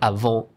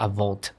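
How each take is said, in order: First: The final T is silent. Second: The final T is pronounced. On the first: The speaker calls it right. "you don't actually pronounce the T. So it's avant" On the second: The speaker calls it wrong. "It's not avant"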